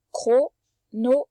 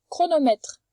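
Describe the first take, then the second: First: Chronomètre drawn out slowly, syllable by syllable; slow sounding out. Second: Said in the usual way. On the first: Shown as a demonstration. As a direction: stretch chronomètre for the child. (chronomètre, lentement, syllabe par syllabe)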